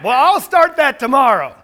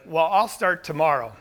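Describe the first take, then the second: First: "Well, I'll start that tomorrow" said louder and higher, a hammed-up excuse; louder mock excuse. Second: Said in the usual way. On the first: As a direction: push the excuse out loud as a parody of yourself. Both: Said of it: "We tell ourselves that a lot".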